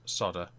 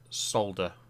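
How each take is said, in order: First: The L sound is left out. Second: The L sound is clearly pronounced. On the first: The speaker calls it wrong. "not two D's" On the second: The speaker calls it right. "we have an L in there"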